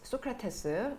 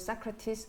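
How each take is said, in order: First: It is said in a Korean style. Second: It is said in an English style.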